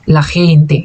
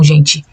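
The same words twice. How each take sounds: First: "la gente" with a harsh throaty j, xente; Spanish gente. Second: The Portuguese "gente" to avoid; Portuguese gente, the wrong way. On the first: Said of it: "então a gente fala gente". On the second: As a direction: say "gente" Brazilian style, as the mistake. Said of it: "e não gente". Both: Shown as a demonstration.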